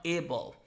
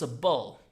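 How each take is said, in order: First: ABLE said "AY-bul"; full "able" ending. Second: A BULL said as "uh-bul"; A BULL run together as a word ending; unstressed A BULL, "uh-bul"; weak "-able" ending. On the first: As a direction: open ABLE with a full AY sound. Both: Shown as a demonstration. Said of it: "not able".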